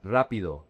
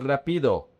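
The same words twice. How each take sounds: First: RA stressed in "rápido", lower falling finish; stress on first syllable. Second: "rápido" stressed on the middle PI; wrong-syllable stress. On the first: Teacher corrects the mistake, stress back on RA in "rápido". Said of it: "The emphasis is on the R A". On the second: Teacher shows learners the mistake, stress moved off RA in "rápido". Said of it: "Not rápido". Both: Shown as a demonstration.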